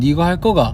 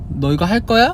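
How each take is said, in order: First: It is spoken in a regional Korean dialect. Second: It is spoken in standard Korean. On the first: "저는 니 이거 할 거가 이렇게 되고" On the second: "표준말로 하면"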